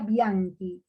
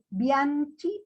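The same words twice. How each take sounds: First: The 'ch' sounds like a 'k'. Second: The 'ch' sounds like 'ch' in 'church'. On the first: This is how the name is actually pronounced. The speaker calls it right. "pero se pronuncia Bianchi" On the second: This is how the name is spelled. The speaker calls it wrong. "Se escribe Bianchi"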